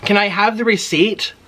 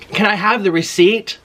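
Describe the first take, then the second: First: High, rising polite request again in the same sing-song; overly polite, sing-song request; sweet polite ask. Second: High, rising polite request; overly polite, sing-song request; sweet polite ask. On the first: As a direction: repeat the polite lilting ask. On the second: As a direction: ask nicely with a lift at the end. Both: Retold or imitated. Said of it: "I said it like that".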